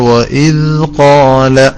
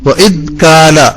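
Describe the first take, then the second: First: The tongue touches lightly on the d sound. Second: The tongue presses hard on the d sound. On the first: The speaker calls it right. "മെല്ലെ തട്ടിയാൽ" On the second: The speaker calls it wrong. "വല്ലാതെ അമർത്തി വെച്ചുപോയി"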